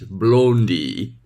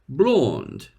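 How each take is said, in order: First: It is said in a Turkish accent, with a final vowel. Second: It is said in a British English accent. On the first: "Turkish English" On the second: "British English"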